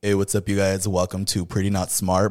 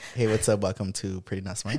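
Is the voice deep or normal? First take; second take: deep; normal. First: It is said in a deep, manly voice. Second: It is said in his normal voice.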